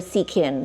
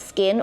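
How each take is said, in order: First: The name is said as two syllables. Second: The name is said as one syllable. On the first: The speaker calls it wrong. "there were quite a few who called it Seakin" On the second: The speaker calls it right. "I'm here to tell you it's Skin"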